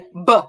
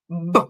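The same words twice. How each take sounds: First: An uh vowel follows the b sound. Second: The b sound is said with no vowel. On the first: The speaker calls it wrong. "I don't want you to say b" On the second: The speaker calls it right. "I want you to say b"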